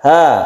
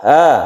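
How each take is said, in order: Both takes have the same delivery.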